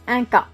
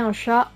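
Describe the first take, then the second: First: The noun starts with a 'k' sound. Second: The noun starts with a 'sh' sound.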